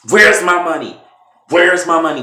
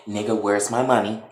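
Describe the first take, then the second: First: Loud, high shouted question; angry demand. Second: Said in the usual way. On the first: Retold or imitated. Candace beating Brandon with a pipe, angry shout. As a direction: shout it hard, each time as a demand.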